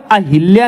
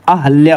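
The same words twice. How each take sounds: First: अहिल्या with i after h, "ahilya"; wrong "hil" middle in अहिल्या; mispronunciation. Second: Said in the usual way. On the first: Shown as a demonstration. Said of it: "अहिल्या नहीं होता है". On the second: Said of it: "अहल्या होता है".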